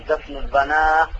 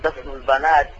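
First: The last word ends with an 'h' sound. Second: The last word ends with a 't' sound. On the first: This is a rare usage by some speakers. "لكن وقف عليه بالهاء وهذا قليل" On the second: This is the original form. "هذا الأصل"

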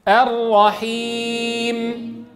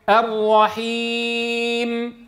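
No difference in how they are said.

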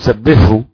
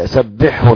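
First: The two consonants are merged into one sound. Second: The two consonants are pronounced separately and clearly. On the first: The speaker calls it wrong. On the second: The speaker calls it right.

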